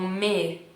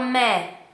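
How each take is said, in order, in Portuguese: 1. A vogal é pronunciada com a boca fechada. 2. A vogal é pronunciada com a boca aberta. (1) "normalmente eles falam me" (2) "a gente abre a boca e fala mé"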